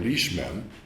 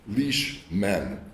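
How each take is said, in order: First: The stress falls on the first syllable only. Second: Both syllables carry equal heavy stress. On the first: It is an ordinary English compound. "Rather than saying leashmen, which should be English" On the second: It is an archaic compound read as a spondee. "one last and archaic spondy"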